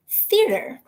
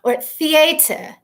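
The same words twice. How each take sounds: First: "Theater" said high, crisp, with a falling finish; proud "Theater". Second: "theater" drawn out slow as "thee-ay-ter"; fancy theater. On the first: Answering Dad's joke by saying "Theater" proudly. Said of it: "Now I feel all accomplished". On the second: Mocking how some people say "theater", stretched slow. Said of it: "as some people will say". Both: Shown as a demonstration.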